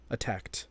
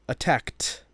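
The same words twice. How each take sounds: First: The final T sound is light and natural. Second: The final T sound is exaggerated and emphasized. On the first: "the third time pronouncing it as I would normally pronounce it" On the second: "the other two times will be kind of emphasizing that ed"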